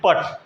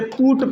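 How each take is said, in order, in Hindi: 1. यह स्वर 'uh' जैसा सुनाई देता है। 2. यह स्वर 'oo' जैसा सुनाई देता है। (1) "ऐसा नहीं पढ़ा जाता है" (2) "इसे पूट पढ़ते हैं"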